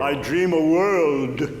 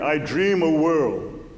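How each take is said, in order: First: The final d of world is clearly pronounced. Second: The final d of world is dropped. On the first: The speaker calls it right. "A d" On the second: The speaker calls it wrong. "I heard"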